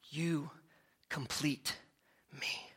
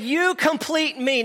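First: Breathy hushed movie-star line, very soft; Tom Cruise impression. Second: Higher, slow hammed-up film line; lightly hammed movie quote; mock Tom Cruise. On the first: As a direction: whisper it like a film romance. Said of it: "I looked and sounded like Tom Cruise". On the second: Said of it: "he said".

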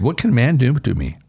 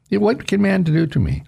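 First: Said in the usual way. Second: Much higher, ringing rhetorical question; defiant repeat. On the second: Acted. Preacher repeats David's defiant question to congregation, higher and bolder. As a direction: fling the question out in triumph.

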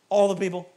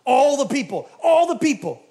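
First: "All" questioned at near-usual pitch; sceptical echo. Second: "All" high, loud, then falling; mock exaggeration. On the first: Retold or imitated. Preacher doubting the spies' report, sceptical stress on "All". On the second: Preacher mocking the spies' report, exaggerated stress on "All". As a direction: hammer "All" higher and louder.

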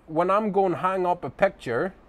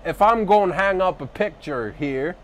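First: Said in the usual way. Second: Mock thick Southern drawl, higher and louder. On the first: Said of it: "thick, uh, southern drawl". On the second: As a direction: ham up a heavy American Southern accent. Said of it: "with his thick, uh, southern drawl".

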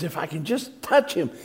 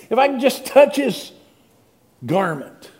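First: Said in the usual way. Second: Much higher and louder, pressing on touch; urgent pleading. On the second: Acted. Sick woman in the crowd, pleading, higher and louder. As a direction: plead it, reaching out.

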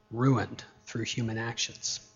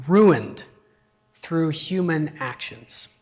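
First: Low, soft, sobering echo; hushed repetition. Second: RUINED stressed with a falling tone, then slow; emphatic statement. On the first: Preacher repeating the point to congregation, low and soft. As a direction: let the point sink in quietly. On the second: Preacher to congregation on spoiled brats, emphatic. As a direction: land firmly on RUINED, ease off after. First take before solemn repetition. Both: Real, not acted.

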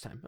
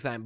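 First: "thyme" said exactly like "time"; standard pronunciation. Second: "thyme" with a soft th as in "thin"; spelling pronunciation. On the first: Checking the name with co-host, "thyme" said with a hard t. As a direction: start "thyme" on a hard t, silent h. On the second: Checking the name with co-host, "thyme" said with th as in "thin". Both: Shown as a demonstration. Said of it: "but it's pronounced thyme".

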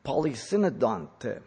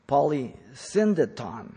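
First: "Polysynodonte" said with an extra syllable in the middle; slip of the tongue. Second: "Polysyndeton" said slowly, syllable by syllable: po-ly-SYN-de-ton; slow, deliberate "Polysyndeton" to fix the slip; careful correction. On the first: Real, not acted. Teacher stumbling over "Polysynodonte" in a term list. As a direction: fumble the word as "Polysynodonte" before correcting it. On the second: Shown as a demonstration. Teacher correcting himself for the class, slowly spelling out "Polysyndeton".

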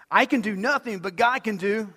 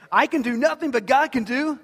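First: Said in the usual way. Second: "can" and "God" lifted higher and louder; louder refrain. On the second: Shown as a demonstration. Preacher raising the refrain with the congregation, louder and higher. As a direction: build the chant up, call it out higher. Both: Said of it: "now you guys are catching on".

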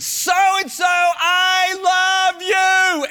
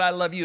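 First: High, loud, drawn-out shout of love; slow, much higher and louder scream; screamed name. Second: Said in the usual way. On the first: Retold or imitated. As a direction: cry it out across an empty playground. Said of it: "I screamed the guy's name out". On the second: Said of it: "when I said".

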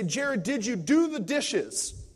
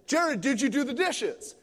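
First: Said in the usual way. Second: Knowing, loaded question. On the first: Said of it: "If she was walking to the kitchen and she'd say". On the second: Retold or imitated. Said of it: "she would ask the same question walking from the kitchen".

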